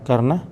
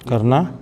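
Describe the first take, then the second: Both takes have the same delivery.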